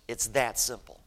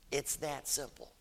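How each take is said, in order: First: Said in the usual way. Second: Softer, gently emphatic; hushed repeat. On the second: Real, not acted. Preacher repeats his point to the church, hushed. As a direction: say it quietly to let it sink in.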